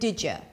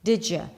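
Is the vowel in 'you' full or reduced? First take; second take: reduced; reduced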